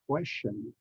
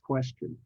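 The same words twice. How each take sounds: First: The last syllable sounds like shun. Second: The last syllable sounds like chun. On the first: The speaker calls it wrong. "I hear a lot of Americans nowadays uh, pronounce it as question" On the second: The speaker calls it right. "the correct pronunciation is question"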